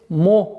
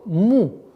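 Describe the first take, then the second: First: The vowel sounds like o. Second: The vowel sounds like u. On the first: The speaker calls it wrong. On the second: The speaker calls it right.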